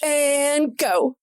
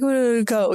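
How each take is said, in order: First: It is said strongly, with force. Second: It is said weakly, without force.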